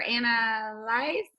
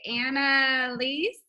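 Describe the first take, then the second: First: Annalise ending like "lice"; alternative name pronunciation. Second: Annalise ending in "lees"; unsure name pronunciation. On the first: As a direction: say Annalise as Anna-lice, rhyming with ice. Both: Shown as a demonstration. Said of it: "Not sure".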